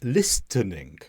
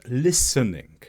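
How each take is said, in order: First: The T sound is pronounced in the middle. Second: The T sound is silent in the middle. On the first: The speaker calls it wrong. "I said listening" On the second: The speaker calls it right. "The T should have been silent. It should have just been the S sound"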